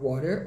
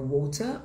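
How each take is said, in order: First: American "water", tapped T, rising; sotaque americano. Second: British "water", crisp T, rising; sotaque britânico. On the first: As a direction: say "water" as "wah-der", American. (sotaque americano, com R final) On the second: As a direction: say "water" as "waw-tah", British. (sotaque britânico, T claro, sem R) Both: Shown as a demonstration. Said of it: "os diferentes tipos de sotaque".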